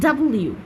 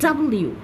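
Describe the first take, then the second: The two takes are said the same way.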